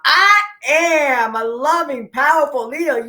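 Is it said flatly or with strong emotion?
strong emotion. It is said with strong emotion.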